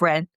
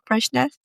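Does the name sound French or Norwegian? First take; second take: French; Norwegian. First: It is said with a French-sounding pronunciation. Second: It is said with a Norwegian-sounding pronunciation. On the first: The speaker calls it right. "I think it's Fren" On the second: The speaker calls it wrong. "I'm pronouncing that like a Norwegian rather than a French person"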